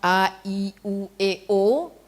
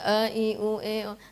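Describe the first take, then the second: First: Each vowel is articulated clearly and distinctly. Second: The vowels are slurred and indistinct. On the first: The speaker calls it right. "itu harus jelas" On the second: The speaker calls it wrong.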